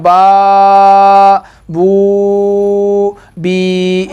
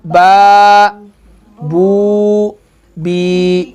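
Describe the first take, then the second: First: बा बू बी dragged slowly; wrong, overstretched. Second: बा बू बी each short and separate; correct, measured. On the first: Teacher showing the wrong long way. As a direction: stretch बा बू बी too long on purpose. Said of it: "ये गलत है". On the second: Teacher showing the correct short way. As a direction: say बा, pause, बू, pause, बी. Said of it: "इसको कैसे पढ़ना है बेटा, देखो". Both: Shown as a demonstration.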